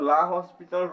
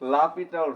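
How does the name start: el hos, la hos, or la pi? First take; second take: la hos; la pi. First: It starts la hos, with an s sound. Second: It starts la pi, with no s sound. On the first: The speaker calls it wrong. "অনেকজনে লা হসপিটাল rules ... বলে" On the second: The speaker calls it right. "এটার আসল নাম হচ্ছে লাপিটাল rule. এটাই correct."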